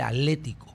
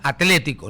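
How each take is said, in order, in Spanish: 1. La t antes de la l se omite. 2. La t antes de la l se pronuncia. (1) "no hay T" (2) "se pronuncia Atlético"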